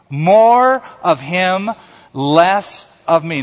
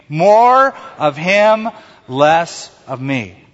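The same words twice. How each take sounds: First: It is said plainly, without extra force. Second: It is said forcefully, with strong conviction.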